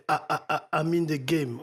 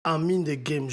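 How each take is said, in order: First: Stuttered repeat. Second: Said in the usual way. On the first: Shown as a demonstration. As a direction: stutter "A" three times before "I'm in the game". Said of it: "J'ai envie de le faire répéter". (bégaiement imité sur « A ») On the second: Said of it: "Vous suivez, il dit".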